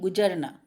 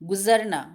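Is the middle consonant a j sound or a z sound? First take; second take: j sound; z sound. First: The middle consonant is a j sound. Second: The middle consonant is a z sound. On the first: The speaker calls it wrong. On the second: The speaker calls it right.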